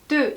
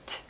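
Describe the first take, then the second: First: The t sound is tense, with no puff. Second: The t sound has a puff of air. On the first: The speaker calls it right. "이 소리가 기본 소리입니다" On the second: The speaker calls it wrong. "트가 아니라 뜨"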